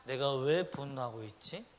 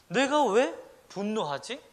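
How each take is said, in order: First: Said in the usual way. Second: 왜 stressed, louder and slow; emphatic self-question. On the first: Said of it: "자기 자신에게 질문해보라는 거". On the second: Shown as a demonstration. Preacher urges the congregation to ask themselves, slow emphatic question. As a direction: slowly ask yourself "왜" with weight. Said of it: "라고 생각해보라는 거예요".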